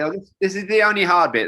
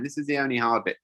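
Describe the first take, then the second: First: A touch louder, lightly voiced young guide; breezy guide's reassurance. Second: Said in the usual way. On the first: Young guide reassuring the scared older jumper, breezy. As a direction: toss it off like it's nothing, mock-casual. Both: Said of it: "That was a famous line".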